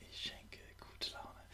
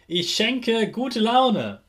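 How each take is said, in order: First: Soft whispered repeat; whispered echo. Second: Said in the usual way. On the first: Shown as a demonstration. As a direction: whisper it back. Repeat-after-me affirmations.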